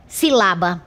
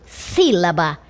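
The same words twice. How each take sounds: First: Silaba wrongly stressed on the middle syllable, si-LA-ba; shifted stress. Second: Sílaba stressed on the first syllable, SÍ-la-ba; correct stress. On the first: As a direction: demonstrate silaba with the weight moved onto LA. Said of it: "Se eu deslocar". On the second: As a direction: demonstrate sílaba with the weight on opening SÍ. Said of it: "Na língua portuguesa eu pronuncio". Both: Shown as a demonstration.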